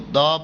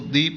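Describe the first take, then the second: First: The vowel is short, like 'thuh'. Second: The vowel is long, like 'thee'. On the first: The next word begins with a consonant sound. "Sometimes हम इसको द pronounce कर" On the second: The next word begins with a vowel sound. "Sometimes हम इसको दी pronounce कर रहे होते हैं"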